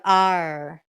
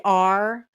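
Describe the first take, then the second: First: A hard, heavy "R" in a Minnesota accent; a firm, rolled-back "R" like Kurt's. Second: Said in the usual way. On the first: Shown as a demonstration. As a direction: lean hard on the "R" sound, Minnesota style. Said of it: "a really hard R". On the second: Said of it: "you could hear the hard R's in his speech".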